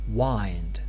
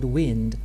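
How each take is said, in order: First: The word rhymes with find, with a long vowel. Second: The word rhymes with pinned, with a short vowel. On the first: This is the older historical form that rhymes in the poem. "up to the middle of the eighteenth century, the dominant pronunciation of this word was wind" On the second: This is the usual present-day form. "Some of you might be surprised why I pronounce the word"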